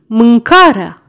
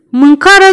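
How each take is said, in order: First: „mâncarea” repeated lower with a falling close; deep-voiced verdict. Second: „Mâncarea” called out loud and high; deep-voiced verdict. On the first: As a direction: let „mâncarea” drop firmly like a final judgement. („mâncarea” repetat mai jos, cu final coborât) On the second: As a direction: slam down the word „Mâncarea” as the cause. („Mâncarea” rostit tare și apăsat) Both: A narrator's reading. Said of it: "răspunse Bumble cu o voce groasă".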